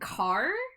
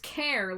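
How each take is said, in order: First: It starts with a k sound, like car. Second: It starts with a k sound, like care. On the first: "making the H silent and and just saying car" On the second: "Care like character"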